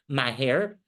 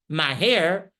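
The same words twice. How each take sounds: First: It is said in a calm, neutral tone. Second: It is said in a sharp, irritated tone. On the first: The order sounds ordinary, so he thinks the honor is his. "like I just said" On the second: The order shows malice and enjoyment of the other's humiliation. "he can be very irritated"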